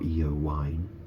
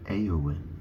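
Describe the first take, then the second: First: The name does not begin with 'ay'. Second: The name begins with an 'ay' sound. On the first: The speaker calls it wrong. "it's not Eowyn" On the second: The speaker calls it right. "It's pronounced like A"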